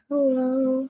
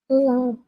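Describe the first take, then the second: First: It is said quietly. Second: It is said loudly.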